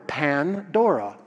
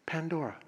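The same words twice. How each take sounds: First: "Pandora" broken into two parts, Pan and dora; name split for meaning. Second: Said in the usual way. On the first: Shown as a demonstration. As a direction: separate "Pandora" slowly after Pan. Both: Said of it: "all gifts".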